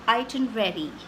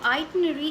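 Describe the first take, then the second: First: The ending 'rary' is fully pronounced. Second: The ending 'rary' is reduced. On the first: "the right pronunciation, which is itinerary. The R is actually pronounced" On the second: "an accepted Indian pronunciation"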